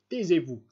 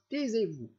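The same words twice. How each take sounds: First: Un "Taisez-vous" lancé bien plus fort, coupant; cri emporté. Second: Le second "taisez-vous" crié bien plus haut; cri aigu emporté. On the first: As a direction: faire taire d'un cri. (cri de colère du prince pour faire taire Lebedev) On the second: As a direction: monter dans l'aigu, exaspéré. (le prince répète son ordre, la voix montant dans l'aigu) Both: A narrator's reading. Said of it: "lui cria le prince avec emportement".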